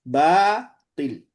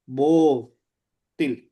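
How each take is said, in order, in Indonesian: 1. Suku kata pertama terdengar ringan, vokalnya jelas. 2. Suku kata pertama terdengar berat, vokalnya gelap.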